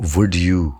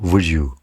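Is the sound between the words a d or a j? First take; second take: d; j. First: A clear d sound is followed by you. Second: The d blends with you into a j sound.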